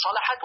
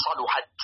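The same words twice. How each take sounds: First: صلحت with an "a" after the lam; fatha on lam. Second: صلحت with a "u" after the lam; rounded middle vowel in صلحت, sa-lu-hat; damma on lam. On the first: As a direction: say صلحت as salahat. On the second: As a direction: say صلحت as saluhat. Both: Shown as a demonstration. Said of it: "بفتح اللام وضمها".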